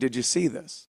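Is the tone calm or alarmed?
calm. It is said in a calm, casual tone.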